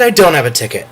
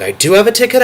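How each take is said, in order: First: "I don't have a ticket" falls back down, let down; deflated. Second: "I do have a ticket" jumps high again, hopeful. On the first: Retelling the ticket seesaw, deflated falling take. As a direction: drop it again, mock gloom. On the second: Retelling the ticket seesaw, hopeful high take. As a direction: bounce back up, eager. Ticket hopes going back and forth. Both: Retold or imitated.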